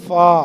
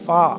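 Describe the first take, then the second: First: The letter name ends in an 'a' vowel. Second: The letter name ends in an 'a' vowel.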